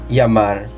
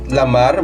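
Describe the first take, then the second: First: The word begins with a Y sound. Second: The word begins with an L sound. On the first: The speaker calls it right. "but llamar because it is doble A following the rules" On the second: The speaker calls it wrong. "you don't say it lamar"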